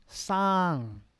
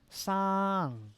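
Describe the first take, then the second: First: The pitch falls across the syllable. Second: The same.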